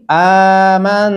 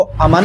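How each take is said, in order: First: आमन with a very long opening aa; slow model reading of आमन, aa stretched; long vowel. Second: अमन with a short first a; quick अमन without the held aa; wrong short vowel. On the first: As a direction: hold the first vowel of आमन, slowly. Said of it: "उसको लंबा करेंगे". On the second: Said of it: "इसको अमन नहीं पढ़ना". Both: Shown as a demonstration.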